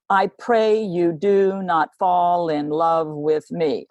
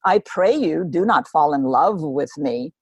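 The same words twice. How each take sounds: First: Slow, every second beat stressed, "pray" and "not" hit; dance the line to its beat; iambic rhythm. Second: Said in the usual way. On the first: Shown as a demonstration. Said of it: "you could almost dance to it". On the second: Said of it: "But she says".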